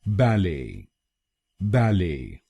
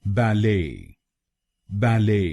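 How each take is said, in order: First: ballet with weight on BAL, falling "ay"; British BAL-ay stress on ballet; first-syllable stress. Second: ballet with weight on LAY; American ba-LAY stress on ballet; second-syllable stress. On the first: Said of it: "पर जोर डालना है". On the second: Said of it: "पर जोर डालेंगे". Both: Shown as a demonstration.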